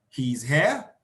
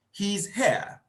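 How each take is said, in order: First: HERE rising at the end, as a question; rising tune on HERE; question intonation. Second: HERE falling at the end, as a statement; falling tune on HERE; statement intonation. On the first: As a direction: ask it, lifting the pitch on HERE. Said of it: "the person could ask a question". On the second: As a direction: announce it with a drop on HERE. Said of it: "Mine is a statement". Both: Shown as a demonstration.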